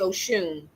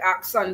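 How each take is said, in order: First: The middle consonant is a 'sh' sound. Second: The middle consonant is a 'ks' sound. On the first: The speaker calls it right. "but it's actually Oshun" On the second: The speaker calls it wrong. "it looks like Aksun"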